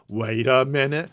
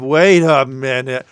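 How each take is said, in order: First: Put-on echo at ordinary volume; mock dawning suspicion. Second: Loud, slow, drawn-out interruption; mock sudden realisation. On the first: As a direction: repeat it as a less forceful double take. Acted double take, softer echo. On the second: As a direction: halt everything with a big acted double take. Acted sudden double take, first take.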